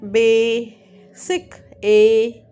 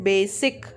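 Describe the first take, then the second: First: "Basic" with a long, pushed "ay" in "Ba"; long tense A. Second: Said in the usual way. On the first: Shown as a demonstration. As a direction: stretch and stress the "ay" of "Basic", then hold "a" alone. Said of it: "tense means stress". ("Basic" का "ए" लंबा और ज़ोर देकर) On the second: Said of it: "it needs some energy".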